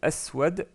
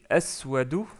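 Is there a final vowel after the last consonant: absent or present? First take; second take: absent; present. First: The word ends on the bare consonant. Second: The word ends with a short final vowel.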